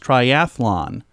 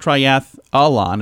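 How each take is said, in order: First: No vowel is added between th and lon. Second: An extra vowel is added between th and lon. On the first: The speaker calls it right. "It's triathlon" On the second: The speaker calls it wrong. "There's no extra A. It's not triathlon"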